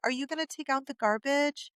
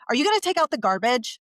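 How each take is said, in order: First: It is said in a nice, sweet tone. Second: It is said in a harsh, demanding tone. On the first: The request comes across as friendly and persuasive. The speaker calls it right. "with a nice, sweet tone and a smile" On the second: The request comes across as nagging. The speaker calls it wrong. "I use a tone of like"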